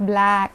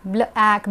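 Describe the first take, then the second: First: ब्लैक said as one smooth word; ब्लैक run together in a single sound; smooth blend. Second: ब्ल ऐक said as two separate chunks; ब्ल ऐक with a gap between ब्ल and ऐक; split blend. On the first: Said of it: "ब्ल तो फिर ऐसे हो जाएगा". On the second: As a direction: break ब्ल ऐक apart, the wrong way. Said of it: "इसमें हम ब्ल नहीं बोलेंगे". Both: Shown as a demonstration.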